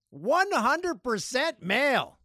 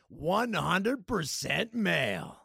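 First: High, slow, drawn-out proclamation; mock triumph. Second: Title announcement. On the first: Host repeats the listener stat, high mock proclamation. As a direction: proclaim it big, stretching every word. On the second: Pretend. Says it as new podcast name.

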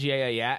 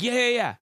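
First: Said in the usual way. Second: Put-on high, loud New Zealand accent copy. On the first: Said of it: "there was one point where she says". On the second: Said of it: "I'm like".

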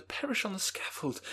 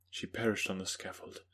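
First: High pleading voice, perish falling; young Elizabeth. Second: Said in the usual way. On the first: Acted.

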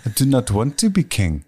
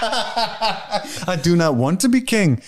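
First: A lighter Schwarzenegger accent with a Pauly Shore twist; Pauly Shore Schwarzenegger mix. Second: Slow, laughing Schwarzenegger-style accent; every word weighed out like Arnold. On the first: For the hosts, Uhtred redone as Arnold crossed with Pauly Shore. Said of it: "Pauly Shore is fucking Arnold Schwarzenegger". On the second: To the laughing co-hosts, a line as Uhtred in a Schwarzenegger accent. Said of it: "sounded like Pauly Shore is fucking Arnold Schwarzenegger". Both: Shown as a demonstration.

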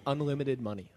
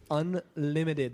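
First: Said in the usual way. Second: "Unlimited" drawn out very slowly, word stretched for weight; slow, deliberate stress on "Unlimited"; emphatic UNLIMITED. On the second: Real, not acted. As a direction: spell out "Unlimited" slowly to drive it home. Repeats it to drive it home.

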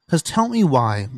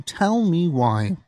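First: Said in the usual way. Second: Dramatic slowed whisper. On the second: Acted. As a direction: whisper it slowly, drawn out. Repeats the phrase as a whisper.

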